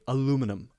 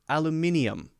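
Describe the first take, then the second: First: It is said with an American pronunciation. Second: It is said with a British pronunciation. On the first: "Americans say aluminum" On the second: "British people actually say aluminium"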